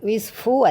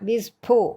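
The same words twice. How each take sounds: First: The consonant is an f sound. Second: The consonant is an aspirated p. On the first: The speaker calls it wrong. "ശരിക്കും വിസ്ഫു അല്ല" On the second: The speaker calls it right. "ചുണ്ടുകൊണ്ട് മാത്രം പറയുന്നു"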